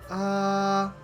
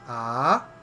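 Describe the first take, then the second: First: The pitch stays high and level throughout. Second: The pitch starts low and rises. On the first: "the first tone is a flat high tone" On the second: "the second tone is a rising tone"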